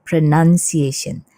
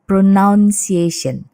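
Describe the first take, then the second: First: The second syllable sounds like nun. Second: The second syllable sounds like noun. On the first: The speaker calls it right. "ini adalah pronunciation ... bukan pronoun, tapi pronun. Jadi O-nya hilang" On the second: The speaker calls it wrong. "Kadang-kadang orang salah mengucapkan ini sebagai pronunciation"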